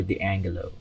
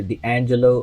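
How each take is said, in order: First: "D'Angelo" with a hard g after the n. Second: "D'Angelo" with a soft j sound in the middle. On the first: Reviewer weighing how to say the name, "[name]" with hard g. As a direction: say "D'Angelo" as dee-ANG-guh-lo. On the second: Reviewer weighing how to say the name, "[name]" with soft g. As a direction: say "D'Angelo" as dee-AN-juh-lo. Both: Shown as a demonstration. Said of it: "It's either [name] or [name]".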